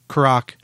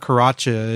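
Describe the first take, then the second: First: The name ends on a consonant, no extra vowel. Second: The name ends with an extra vowel sound. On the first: The speaker calls it right. "It's just Karach Angren" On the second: The speaker calls it wrong. "So it's not Karacha"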